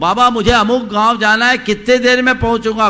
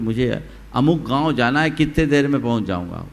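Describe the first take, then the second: First: It is called out loudest of all. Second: It is called out at ordinary volume.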